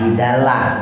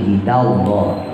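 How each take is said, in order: First: The L sound is light and thin. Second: The L sound is heavy and full. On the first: The speaker calls it wrong. "bukan jidalah" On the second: The speaker calls it right. "Lohnya tafkhim, dibaca loh"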